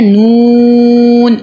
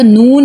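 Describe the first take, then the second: First: नून louder, with the oo held very long; elongated madd. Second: Said in the usual way. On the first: Shown as a demonstration. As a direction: stretch नून on a strong steady note. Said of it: "क्या पढ़ते हैं". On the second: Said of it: "हम इसको नून नहीं पढ़ते".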